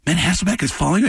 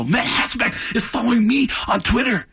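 First: Said in the usual way. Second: High-pitched giddy fan outburst; freaked out. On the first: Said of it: "he goes". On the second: Retold or imitated. Fan tells his friend of Twitter follow, freaked out. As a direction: exclaim it, hammed-up and overexcited. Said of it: "I freaked out".

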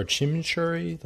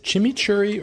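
First: "chimichurri" with a soft sh in the second half; second pronunciation option. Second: "chimichurri" with a hard ch in both halves; first pronunciation option. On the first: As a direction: say "chimichurri" as chimmy-shurry. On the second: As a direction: say "chimichurri" as chimmy-churry. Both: Shown as a demonstration. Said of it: "Like, what's the".

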